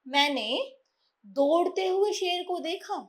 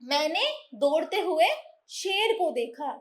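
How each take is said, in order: First: It is said without a pause after 'daudte hue'. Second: It is said with a pause after 'daudte hue'. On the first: The lion was running. "कि शेर क्या कर रहा था, दौड़ रहा था।" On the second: The speaker was running. "यहाँ ये बताते हैं कि मैं दौड़ रहा था"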